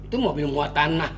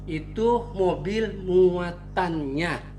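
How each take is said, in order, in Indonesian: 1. Frasa itu diucapkan cepat, dengan suku kata yang saling menyambung. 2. Frasa itu diucapkan dengan tempo normal dan hati-hati. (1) "kalau dia ngomongnya cepet" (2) "Harusnya dia ngomong begini sebenarnya"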